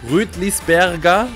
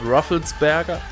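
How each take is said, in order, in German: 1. Der Name wird deutsch ausgesprochen. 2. Der Name wird englisch ausgesprochen. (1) "Rüdlisberger, kann man auch sagen" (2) "bei der englischen Variante oder amerikanischen Variante"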